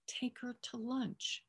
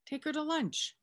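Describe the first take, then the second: First: Slow, spelled-out order. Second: Exasperated repeat. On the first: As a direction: take her to lunch, said slowly word by word. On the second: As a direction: take her to lunch, pitched much higher in mock exasperation. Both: Retold or imitated. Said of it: "Are you not getting the theme here?".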